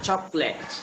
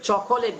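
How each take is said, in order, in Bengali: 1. মাঝের স্বরধ্বনিটি বাদ যায়, তাই দুই দল। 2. মাঝের স্বরধ্বনিটি উচ্চারিত হয়, তাই তিন দল। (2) "এটা কিন্তু চকোলেট বলা যাবে না"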